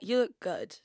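It is said with strong emphasis and feeling. The compliment is sincerely meant. The speaker calls it right. "putting emphasis on it"

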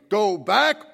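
It is said angrily.

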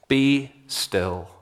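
It is said sharply and sternly. It rebukes the listener on the day of judgment. The speaker calls it right. "a stinging rebuke"

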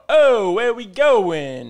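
It has an exaggerated South Philly Italian accent.

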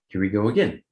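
It is said in a ready, upbeat tone. The hardship was expected and there is a plan for it. "what if we just change the tonality of it and we say"

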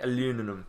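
The word is said with an American pronunciation.

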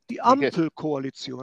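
Ampel is pronounced with a German accent. The speaker calls it right. "I can actually do that. Properly"

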